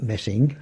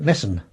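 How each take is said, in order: First: Said in the usual way. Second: "Messen" with no G, ending on N; local Essex pronunciation. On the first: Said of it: "they would call it Messen". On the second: Shown as a demonstration. Recalling village speech from youth, local pronunciation. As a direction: swallow the ending of "Messen" to a bare N. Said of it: "they would call it".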